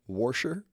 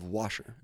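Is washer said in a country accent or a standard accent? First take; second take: country; standard. First: Washer is said in a rural country accent. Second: Washer is said in a standard accent. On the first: This is how the speaker's rural father says it. "He also says washer" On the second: This is the usual way to say it. "Instead of washer"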